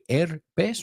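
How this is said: The word is pronounced the Spanish way. "You say herpes"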